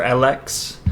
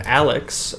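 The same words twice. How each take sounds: First: Alex said "AL-EKS", with a full second vowel; Alex as "a-LEKS", second syllable unreduced; alternative pronunciation. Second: Said in the usual way. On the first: Shown as a demonstration. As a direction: give Alex a clear "eks" ending. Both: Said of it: "is it pronounced Alex or Alex".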